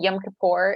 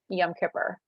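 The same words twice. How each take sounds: First: It is said with traditional non-American pronunciation. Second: It is said with Americanized pronunciation. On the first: "technically correct way to pronounce it" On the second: "the Americanized version"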